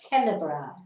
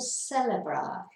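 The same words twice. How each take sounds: First: The word begins with a k sound. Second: The word begins with an s sound. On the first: The speaker calls it wrong. "So you can't say celebrar" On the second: The speaker calls it right. "you can either do it as a th or a s"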